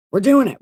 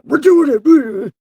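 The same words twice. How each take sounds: First: Forced self-rallying. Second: Very high, drawn-out yell; slow, unhinged alter-ego holler; split-personality shout. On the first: Psyching self up to go on. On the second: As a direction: stretch it into a warped, loud scream. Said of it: "This seriously giving me split personalities". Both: Acted.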